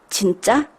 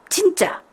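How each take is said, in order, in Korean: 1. 보통의 올라가는 질문 억양이 있어요. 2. 이상하고 뒤틀린 높낮이 패턴이 있어요. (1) "우리가 이야기할 때 ... 이렇게 물어보는 거를" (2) "거의 이런 식으로 발음을 합니다"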